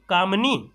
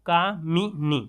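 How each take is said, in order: First: कामनी without the i vowel, said kamni; wrong form. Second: कामिनी with a clear short i, ka-mi-ni; correct form. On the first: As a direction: clip it to कामनी, two syllables after का. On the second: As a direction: give कामिनी three syllables, mi in the middle. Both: Shown as a demonstration. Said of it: "लेकिन सही क्या है".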